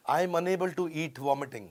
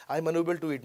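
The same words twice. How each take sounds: First: "unable to eat vomiting" in one phrase; no comma. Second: "I am unable to eat" closed off after "eat"; stop at comma. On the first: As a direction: run "eat" straight into "vomiting". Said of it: "comma नहीं लगाया". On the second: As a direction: end the phrase firmly on "eat". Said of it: "comma, क्योंकि मैं vomit कर रहा हूँ". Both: Shown as a demonstration.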